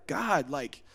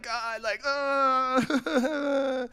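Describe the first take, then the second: First: Soft, level address to God; calm prayer. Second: High-pitched whining sob; mock crying. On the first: Acted. Believer talking to God plainly, calm and soft. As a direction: speak it composed, with no whine. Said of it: "get on the same frequency". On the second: Believer bringing problems to God, mock sobbing. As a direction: imitate someone bawling their complaints. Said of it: "he sees us crying".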